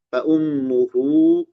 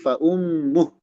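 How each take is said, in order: First: The phrase ends with an added u vowel. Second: The phrase ends with a bare h sound. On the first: The reader connects it to the next word. "kalau disambung" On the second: The reader stops on this word. "kalau berhenti"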